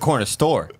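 The stress falls on the word store. The speaker calls it wrong. "Like he would enunciate the store"

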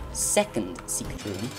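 It is said in a silly put-on voice. "but in a random voice"

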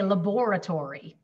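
It is said with a British pronunciation. "in British English, they say laboratory"

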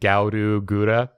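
The name is said with Japanese syllables. "In Japanese, it flows a little bit better"

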